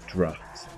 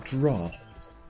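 First: It is said in a northern English accent. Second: It is said in a southern English accent.

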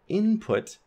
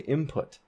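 First: The nasal is a clear n sound. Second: The nasal becomes an m sound. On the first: "when we emphasize it, we have an alveolar" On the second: "in fast speech, we would say input"

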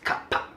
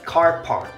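First: It is said in a crisp Singaporean accent. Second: It is said in an American accent.

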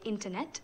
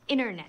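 First: The word is said with an Indian English accent. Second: The word is said with an American accent. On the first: "We say internet" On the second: "and you say internet"

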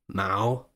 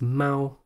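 First: The word is said with a rising tone. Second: The word is said with a flat tone. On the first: It is a family name. "which has a rising tone" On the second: It means cat. "which has a flat tone"

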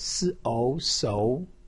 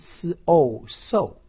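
First: The pitch rises from middle to high. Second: The pitch falls sharply from high to low. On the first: "二声" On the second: "四声"

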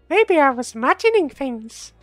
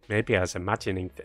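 First: It is acted in Tate's character voice. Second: It is read in her own plain voice.

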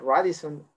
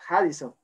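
First: The word starts with a Spanish R sound. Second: The word starts with an H-like sound. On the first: The speaker calls it wrong. "cuando yo le dije Radisson a las personas" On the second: The speaker calls it right. "la R se pronuncia como J en Brasil, entonces era Harrison"

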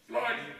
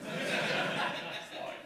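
First: It is said loudly, with more force. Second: It is said softly, with little emphasis.

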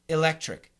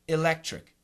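First: The first vowel is a short i sound. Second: The first vowel is a short i sound.

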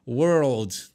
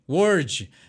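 First: The word is said with a clear L sound. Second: The word is said without an L sound. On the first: The speaker calls it right. "Tem que pronunciar todas as letras da palavra" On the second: The speaker calls it wrong. "o brasileiro não pronuncia todas as letras da palavra"

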